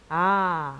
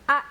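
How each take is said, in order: First: The vowel is said softly and drawn out. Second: The vowel is said forcefully and strongly. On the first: "위에 거는 약하고 길게" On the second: "이렇게 세게 발음해 주시면 되고요"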